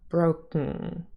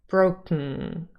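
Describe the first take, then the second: First: The second syllable is k plus syllabic ng. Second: The same.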